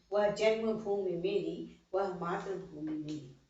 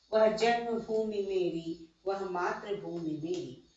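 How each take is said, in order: Both takes have the same delivery.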